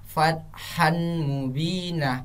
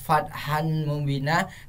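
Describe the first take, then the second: First: The n merges into a held, nasal m. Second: The n is clearly pronounced before m. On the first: The speaker calls it right. "Seharusnya kita membaca" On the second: The speaker calls it wrong. "Kenapa tidak"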